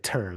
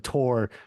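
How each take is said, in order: First: The syllable has a shortened, reduced vowel. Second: The syllable has a full, longer vowel.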